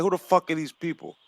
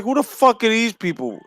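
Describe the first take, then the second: First: Softer, dismissive mutter under the breath; muttered quote. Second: Higher, exasperated disbelief; blurting it out in disbelief; incredulous quote. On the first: Still baffled by singers today, soft dismissive mutter. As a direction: mutter it like you've given up. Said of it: "I'm like". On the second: Recalling his reaction to new pop stars, incredulous higher blurt. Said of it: "I was like". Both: Retold or imitated.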